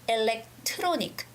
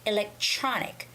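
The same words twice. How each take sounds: First: The TR is said with a hard T sound. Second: The TR is said like a CH sound. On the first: The speaker calls it wrong. "electronic is the T sound" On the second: The speaker calls it right. "electronic is the C H sound"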